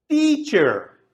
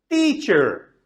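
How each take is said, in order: Both takes have the same delivery.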